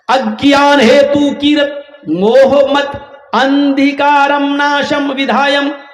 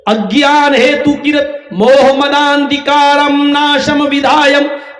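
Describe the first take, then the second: First: The words are read separately, one by one. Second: The words are run together in one flow.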